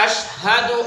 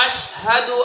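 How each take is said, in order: No difference in how they are said.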